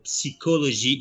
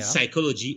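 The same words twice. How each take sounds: First: It is said with the French pronunciation. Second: It is said with the English pronunciation.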